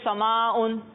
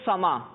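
First: The word ends with a case ending and 'n'. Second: The word ends on a vowel with no ending. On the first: The word is read with its full grammatical ending. "اگر ہم اس کو اعراب لگائیں گے تو پڑھیں گے" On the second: The word is read in its pausal form. "جب ہم اس کو ساکن کر دیں گے"

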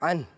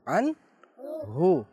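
First: The word ends on a consonant, no vowel. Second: The word ends with a short u vowel. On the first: "या साकिन कर दें" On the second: "आखिर में बोलते हैं अनहु"

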